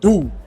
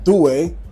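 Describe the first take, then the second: First: The name is said the French way. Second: The name is said as he first read it. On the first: The speaker calls it right. "the French pronounce it Doux" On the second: The speaker calls it wrong. "I thought it said Douai"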